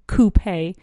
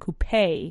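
First: The stress falls on the first syllable. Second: The stress falls on the second syllable. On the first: "acentuando la U" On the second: "acentuando la E en coupe"

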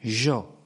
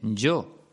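First: The y sounds like sh, Rioplatense style. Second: The y sounds like English y, not Rioplatense.

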